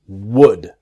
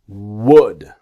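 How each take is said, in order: First: The L sound is silent. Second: The same.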